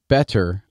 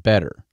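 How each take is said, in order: First: "better" with a true T in the middle; crisp T demo. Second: "better" as "bedder". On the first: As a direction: say "better" with the T fully pronounced. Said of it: "I don't pronounce, like, better". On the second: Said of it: "B E D E R is how I pronounce it". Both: Shown as a demonstration.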